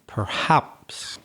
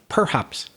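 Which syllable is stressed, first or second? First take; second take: second; first. First: The stress is on the second syllable. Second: The stress is on the first syllable. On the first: The speaker calls it right. "the strong syllable, is the second one" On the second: The speaker calls it wrong. "You were like stressing the first syllable"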